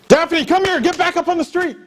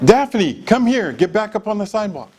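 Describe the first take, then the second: First: It is said loudly and urgently. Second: It is said calmly and quietly.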